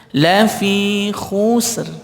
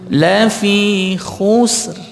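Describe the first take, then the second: No difference in how they are said.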